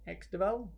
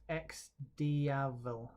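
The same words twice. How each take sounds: First: "X Deval?" as two-syllable de-VAL, questioning rise; unsure mispronunciation. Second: "X Diavel" as three syllables, dee-AH-vel; corrected pronunciation. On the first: Real, not acted. Presenter guesses at the bike's name, tentative pronunciation. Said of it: "tell me I've got it wrong". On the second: Shown as a demonstration. Presenter relays a viewer's correction, careful pronunciation. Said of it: "telling me it's pronounced X Diavel".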